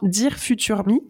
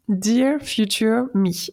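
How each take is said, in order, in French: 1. Il est prononcé avec un accent français. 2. Il est prononcé avec un accent anglais. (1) "je vous le fais avec l'accent français" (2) "avec un magnifique accent anglais"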